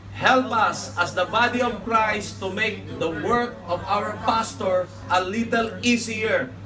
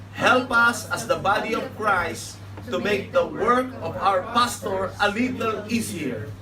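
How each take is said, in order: No difference in how they are said.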